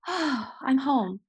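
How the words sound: It sounds relieved, with a contented sigh.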